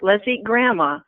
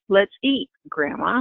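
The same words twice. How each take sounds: First: It runs straight on with no pause before grandma. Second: There is a pause before grandma.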